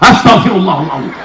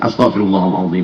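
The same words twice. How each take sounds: First: It is said in an angry tone. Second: It is said in a calm tone.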